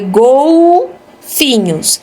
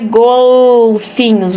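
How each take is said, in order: First: The L sounds like a U vowel. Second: The L is a clear L sound. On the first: The speaker calls it right. "você lê golfinhos. Então aqui é verde" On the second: The speaker calls it wrong. "você não lê golfinhos"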